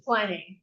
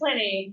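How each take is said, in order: First: The first vowel is a long 'eye' sound. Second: The first vowel is a short 'ih' sound. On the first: It names the beer. "but the beer is Pliny. Yeah, it's a long I in American English" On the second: It names the ancient writer. "the man is Pliny"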